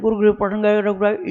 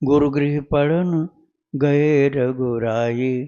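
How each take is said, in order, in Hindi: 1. पंक्ति तेज़ गति से पढ़ी जाती है। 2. पंक्ति धीमी गति से पढ़ी जाती है। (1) "इतना जल्दी जल्दी भी नहीं करना" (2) "इतना धीमा भी कर सकते हो"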